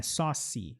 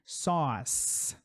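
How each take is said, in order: First: Sauce with an extra i vowel tacked onto the end; wrong sauce. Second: Sauce with one syllable, ending on a clean s; correct sauce. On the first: Teacher showing students the mistaken sauce with an added vowel. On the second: Teacher showing students sauce as a single syllable. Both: Shown as a demonstration. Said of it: "Não é sauce".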